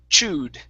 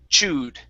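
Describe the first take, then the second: Both takes have the same delivery.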